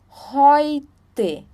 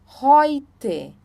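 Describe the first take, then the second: Both takes have the same delivery.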